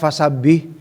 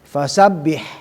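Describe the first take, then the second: First: The final h is flat and weak. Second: The final h is clearly breathed from the throat. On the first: The speaker calls it wrong. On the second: The speaker calls it right.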